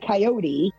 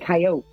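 First: Coyote is said the Northeastern US way. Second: Coyote is said the Western US way. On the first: "Northeast people say coyote" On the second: "I believe the West, they actually do say coyote"

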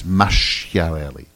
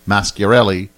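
First: The middle consonant is a soft CH sound. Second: The middle consonant is a hard K sound. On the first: The speaker calls it right. "and it's Masciarelli" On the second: The speaker calls it wrong. "I just want to call Mascarelli"

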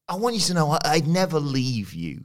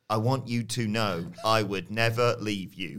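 First: It is said in a charming, charismatic voice. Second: It is said in a put-on impression voice. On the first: The speaker calls it wrong. "You're making it sound like he's got charisma" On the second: The speaker calls it right. "Do it in his voice"

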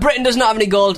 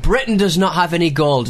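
First: It is said in an imitated, put-on accent. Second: It is said in the speaker's normal voice.

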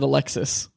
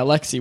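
First: The name ends with an s sound. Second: The name ends without an s sound. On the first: The speaker calls it wrong. "we said Alexis" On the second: The speaker calls it right. "Yerky's gonna be mad we didn't say Alexi"

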